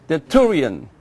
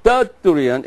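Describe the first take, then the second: First: Tertullian said ter-TOO-lian; stress on TU. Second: Tertullian stressed on the first syllable, TER-tullian; wrong stress. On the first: Teacher giving class the name after correcting it, correct stress. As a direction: lean on the second syllable, "too", in Tertullian. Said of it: "it's the two". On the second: Teacher correcting the class's repetition, misplaced stress. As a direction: hit the TER of Tertullian, let the rest fall. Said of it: "Not Tertullian, it's the two". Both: Shown as a demonstration.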